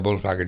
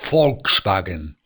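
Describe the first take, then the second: First: The first sound is a voiced v or b. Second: The first sound is a voiceless hissing sound. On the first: The speaker calls it wrong. "la gente que dice Volkswagen no se dice Volkswagen" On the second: The speaker calls it right. "se dice Volkswagen"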